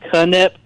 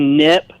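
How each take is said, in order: First: The name starts with a K sound. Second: The name starts with an N sound. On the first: The speaker calls it wrong. "not Knip" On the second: The speaker calls it right. "Ricky Nip"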